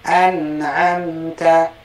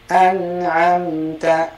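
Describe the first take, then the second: No difference in how they are said.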